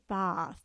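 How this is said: The word is said with a British vowel. The speaker calls it right. "we were corrected by a very lovely English lady"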